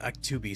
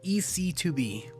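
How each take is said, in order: First: The start is said as one word, act. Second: The start is said as separate letters. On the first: The speaker calls it wrong. "I just thought Act two B sounds cooler" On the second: The speaker calls it right. "you want to pronounce it as E C two B"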